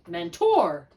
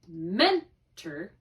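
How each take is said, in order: First: The stress is on the second syllable. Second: The stress is on the first syllable. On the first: The speaker calls it wrong. "if I wanted to switch the accents" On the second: The speaker calls it right. "accenting the first syllable and not accenting the second syllable"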